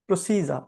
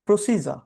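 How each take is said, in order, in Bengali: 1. মাঝের ব্যঞ্জনটি 'j' ধ্বনি দিয়ে বলা হয়। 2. মাঝের ব্যঞ্জনটি 'j' ধ্বনি দিয়ে বলা হয়।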